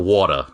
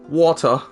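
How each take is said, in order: First: It is said in an American accent. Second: It is said in a British accent. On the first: The speaker calls it wrong. "Not like a water" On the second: The speaker calls it right. "You gotta say it exactly like risotto spelled. W A T U H"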